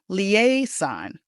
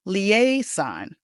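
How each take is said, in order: First: The middle consonant is a hissing s sound. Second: The same.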